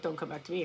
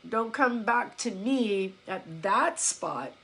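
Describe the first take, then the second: First: Low, much softer throwaway rebuff; muted mock dismissal. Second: Slow, spaced-out warning; measured warning. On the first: Coach showing what she doesn't mean, quiet dismissal. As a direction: drop the voice right down, as if brushing someone off. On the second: Retold or imitated. Coach to a client who gives up, slow measured warning. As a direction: lay it down slowly, phrase by phrase. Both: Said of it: "I'm not saying it like".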